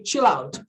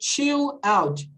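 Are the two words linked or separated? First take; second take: linked; separated. First: The two words are linked together. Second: The two words are said separately. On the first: The speaker calls it right. "It's really connected" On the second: The speaker calls it wrong. "you don't say chill out"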